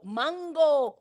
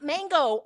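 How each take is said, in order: First: "mango" with open ah, as "mahn-go"; corrected pronunciation. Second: "mango" with American flat a, as "mayn-go"; wrong pronunciation. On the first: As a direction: say "mango" the Spanish way. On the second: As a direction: say "mango" the English way, "man-go". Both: Shown as a demonstration. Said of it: "not mango".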